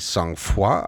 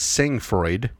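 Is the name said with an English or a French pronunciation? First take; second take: French; English. First: The name is said with a French pronunciation. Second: The name is said with an English-style pronunciation. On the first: "If this was French, it'd be sang-froid" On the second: "So I'm pronouncing this Sangfroid"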